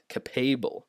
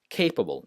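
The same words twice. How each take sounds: First: The stress is on the second syllable. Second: The stress is on the first syllable. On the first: The speaker calls it wrong. "not capable" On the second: The speaker calls it right. "the first syllable is stressed"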